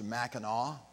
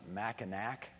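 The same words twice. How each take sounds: First: The name ends with a 'naw' vowel sound. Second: The name ends with a 'nack' sound. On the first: This is how the name is properly said. The speaker calls it right. "because it's French, it's pronounced" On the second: This is how outsiders say the name. The speaker calls it wrong. "spelled with an N-A-C at the end, and so people who are tourists often pronounce it"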